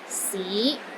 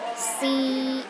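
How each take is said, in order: First: The pitch rises from low to middle. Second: The pitch is high and steady. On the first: "It starts low, then rises to the middle of your range" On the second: "The first tone is high and steady"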